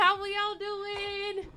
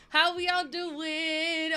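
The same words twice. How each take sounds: First: Sung, slow sing-song greeting, pitched up. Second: Said in the usual way. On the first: Shown as a demonstration. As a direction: sing the question out slowly.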